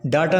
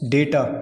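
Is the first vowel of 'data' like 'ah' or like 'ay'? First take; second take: ah; ay. First: The first vowel sounds like 'ah'. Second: The first vowel sounds like 'ay'. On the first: The speaker calls it wrong. "डाटा नहीं है, डाटा गलत है" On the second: The speaker calls it right. "क्या है? डेटा।"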